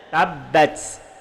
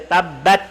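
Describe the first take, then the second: First: The final t has a breathy puff of air. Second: The final t is plain with no air. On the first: The speaker calls it right. "tapi kena tabbat. Ha, tabbat dia ada angin" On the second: The speaker calls it wrong. "kita tak boleh baca tabbat"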